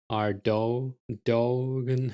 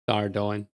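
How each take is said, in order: First: The name ends with a 'dogen' sound. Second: The name ends with an 'oin' sound. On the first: The speaker calls it wrong. "Sounds so wrong" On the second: The speaker calls it right. "it's clearly Ardoin"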